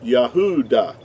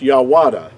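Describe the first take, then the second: First: The middle of the word has a U sound. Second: The middle of the word has a W sound. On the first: The speaker calls it right. "It would have to be pronounced Yah, Yahuda" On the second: The speaker calls it wrong. "it would not be pronounced Yahwada"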